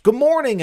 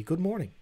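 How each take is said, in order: First: Bright, high, loud good morning; cheery greeting. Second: Quieter, settled repeat of good morning; softer greeting. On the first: Greeting a viewer in chat, loud and high. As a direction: call out a big hello. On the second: Repeating hello to the viewer, softer. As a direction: say it again, gently. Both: Real, not acted.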